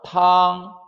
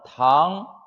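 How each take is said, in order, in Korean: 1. 음높이가 높고 평평하게 유지돼요. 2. 음높이가 중간에서 높은 쪽으로 올라가요. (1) "일성" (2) "이성"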